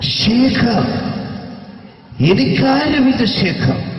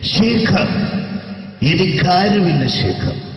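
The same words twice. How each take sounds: First: The character voice is heavily exaggerated. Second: The character voice is toned down and restrained. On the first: The speaker calls it wrong. "ശരിക്കും സിനിമയിൽ ഉപയോഗിച്ച ശൈലി ഇത്ര അത്ര ഇല്ല" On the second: The speaker calls it right. "ഇങ്ങനെയാണ്"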